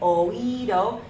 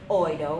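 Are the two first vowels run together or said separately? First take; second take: separate; run together. First: The first two vowels are said as separate syllables. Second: The first two vowels blend into one syllable. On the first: The speaker calls it right. "we want it to say oído. So we're going to use our accents again to separate the sounds" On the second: The speaker calls it wrong. "We don't want it to say oído"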